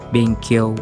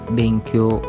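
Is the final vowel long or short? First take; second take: short; long. First: The final vowel is cut short. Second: The final vowel is held long. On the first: The speaker calls it wrong. "bukan benkyo" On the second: The speaker calls it right. "diucapkan panjang"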